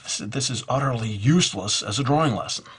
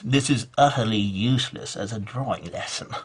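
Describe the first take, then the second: First: It is said in a plain, neutral tone. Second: It is said in a disdainful, appalled tone.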